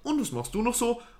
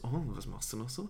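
First: It is said in a flat, dry way. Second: It is said in a suggestive, flirty way.

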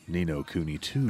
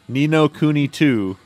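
First: It is read slowly in a deep voice. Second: It is read at ordinary pitch and speed.

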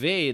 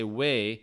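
First: The word begins with a V sound. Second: The word begins with a W sound. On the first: "usually a W in German is a V sound" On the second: "like we would in English with our W"

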